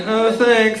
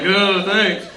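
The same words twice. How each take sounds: First: Sweet thanks. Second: Grudging thanks. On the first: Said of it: "And I was like". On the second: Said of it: "you know, like". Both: Retold or imitated.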